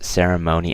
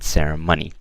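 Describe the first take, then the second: First: The ending sounds like 'phony'. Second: The ending sounds like 'money'. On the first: The speaker calls it right. "So it's ceremony" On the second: The speaker calls it wrong. "not ceremony"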